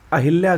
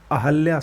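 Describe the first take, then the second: First: अहिल्या with an i after ह; wrong form. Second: अहल्या with a after ह; correct form. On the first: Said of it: "गलत है". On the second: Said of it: "सही होता है". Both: Shown as a demonstration.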